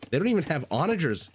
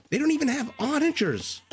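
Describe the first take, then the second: First: Higher-pitched, quick disbelief; incredulous complaint. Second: Very high, exasperated squeal of disbelief; high-pitched disbelief. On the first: Griping about terrible siege line, first take. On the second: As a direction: repeat it way up high in outraged disbelief. Repeats the gripe, far higher. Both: Real, not acted.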